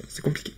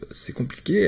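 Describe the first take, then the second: First: "c'est compliqué" breathed out in a soft whisper; hushed whispered repeat; whispered aside. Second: Said in the usual way. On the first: Real, not acted. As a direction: whisper it to yourself, resigned.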